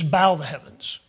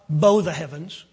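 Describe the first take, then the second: First: Bow is said like bowing down low. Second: Bow is said like the bow of a rainbow. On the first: To let down or bend down. The speaker calls it right. "it is bow the heavens" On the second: A curved arch like a rainbow. The speaker calls it wrong. "it's not bow the heavens"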